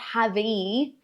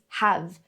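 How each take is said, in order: First: An extra vowel is sounded after the final v. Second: The word ends cleanly on the v sound. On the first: The speaker calls it wrong. "It's not have-e" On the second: The speaker calls it right. "it's have"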